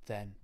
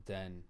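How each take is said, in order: First: Said in the usual way. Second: "then" said with a hard d, "den". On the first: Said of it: "rather than then". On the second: Shown as a demonstration. Galway man showing his local habit, "then" as "den". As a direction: start "then" on a d. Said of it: "we don't really do T H".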